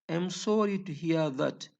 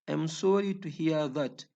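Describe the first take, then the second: No difference in how they are said.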